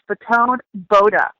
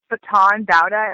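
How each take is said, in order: First: The second word's first vowel sounds like 'boat'. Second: The second word's first vowel is not like 'boat'. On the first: The speaker calls it right. "like boat" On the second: The speaker calls it wrong. "I was saying Baton Bauda at first"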